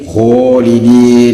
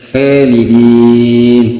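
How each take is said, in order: First: The first vowel is very thick and heavy. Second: The first vowel is thin and light. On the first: "lebih tebal lagi" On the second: "khalidin tipis"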